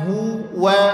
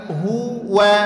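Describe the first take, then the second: No difference in how they are said.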